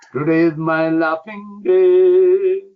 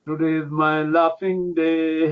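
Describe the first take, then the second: First: Chanted, call out "Today is my laughing day" slowly and loudly. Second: Said in the usual way. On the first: Shown as a demonstration. Yogi demonstrating to Amanda, loud slow chant. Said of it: "what do you think of my way of laughing". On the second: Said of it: "my way of laughing".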